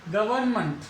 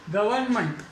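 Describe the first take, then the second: No difference in how they are said.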